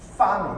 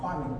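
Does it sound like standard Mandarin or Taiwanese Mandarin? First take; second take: standard Mandarin; Taiwanese Mandarin. First: It starts with an f sound, standard Mandarin. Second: It starts with an h sound, Taiwanese Mandarin.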